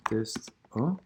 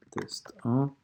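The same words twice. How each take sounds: First: Said in the usual way. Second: Unvoiced whisper, rising at the end; whispered while typing. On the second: Real, not acted. Teacher retyping the test title, whispered. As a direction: breathe the words as you key them.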